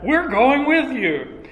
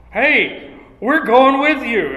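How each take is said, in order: First: Higher, slower, every word leaned on; emphatic. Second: Loud, higher, eager reply; the disciples jump in, all in; emphatic. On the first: Disciples insist to Peter they're coming, slow and emphatic. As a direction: stretch it out, insisting. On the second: Disciples eagerly tell Peter they're coming, loud and emphatic. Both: Acted.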